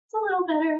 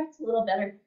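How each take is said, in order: First: Higher, pleased report of slight relief; a lifted, hopeful little report; hopeful patient. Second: Said in the usual way. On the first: Retold or imitated. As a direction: voice the woman noticing her feet improve. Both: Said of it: "each time she would be like".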